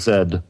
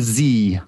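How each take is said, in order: First: The letter is named the British way. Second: The letter is named the American way. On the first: It is how Canadians and Brits say it. "trying to accommodate the Canadians and Brits in my life" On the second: It is how the speaker's own group says it. "or the Z, as we like to say"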